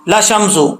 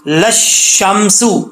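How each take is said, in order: First: The sh sound is short and single. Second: The sh sound is held and doubled. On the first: The speaker calls it wrong. "अक्सर लोग पढ़ते हैं ... ऐसा नहीं पढ़ना" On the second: The speaker calls it right. "शीन के ऊपर शब्द है तो मिला के पढ़ेंगे"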